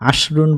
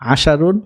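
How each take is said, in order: First: No vowel follows the sh sound. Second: A vowel follows the sh sound. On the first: The speaker calls it wrong. "একটা মিস্টেক হয়ে গিয়েছিল" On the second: The speaker calls it right. "আসলে এটা হবে"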